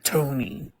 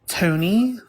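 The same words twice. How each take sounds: First: The name is called in a stern way. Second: The name is called like a question.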